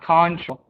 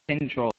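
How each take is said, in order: First: The first syllable keeps a full 'con' vowel. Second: The first syllable is reduced and weak. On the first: The speaker calls it wrong. "It's not control" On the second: The speaker calls it right. "this turns into like a control"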